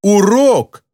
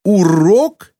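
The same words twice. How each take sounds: First: High outraged exclamation, falling hard; furious retort. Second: High, indignant question, rising sharply; mild furious yell. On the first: Girl throws the word back at her teacher, furious. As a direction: repeat the word as an indignant protest. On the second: Girl retorts to her driving teacher, mildly furious. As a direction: throw it back in outraged disbelief. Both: A narrator's reading. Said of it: "яростно завопила она в ответ".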